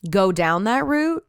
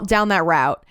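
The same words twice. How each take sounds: First: "route" said like "root". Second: "route" said like "rout". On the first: Real, not acted. Podcaster slipping on a word, "route" pronounced "root". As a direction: rhyme "route" with "boot". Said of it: "I don't say route". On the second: Shown as a demonstration. Podcaster redoing a phrase, "route" pronounced "rout". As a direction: rhyme "route" with "out". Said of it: "I think I say route".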